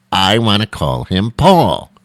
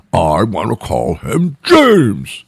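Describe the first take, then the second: First: Escalating name argument; insistent parent. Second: Slow, louder stubborn counter; escalating name argument; insistent partner. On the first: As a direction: drag it out stubbornly. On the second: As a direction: stretch out James defiantly. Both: Retold or imitated. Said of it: "couldn't make a decision".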